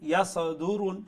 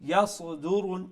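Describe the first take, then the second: Both takes have the same delivery.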